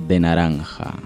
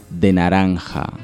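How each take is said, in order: The two takes are said the same way.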